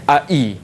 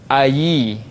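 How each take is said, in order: First: The second vowel starts with a full glottal stop. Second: The second vowel starts with a clear y sound. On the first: "Ai itu hamzah uh, sempurna" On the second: "Cuba i itu kita tukarkan kepada ya baris bawah"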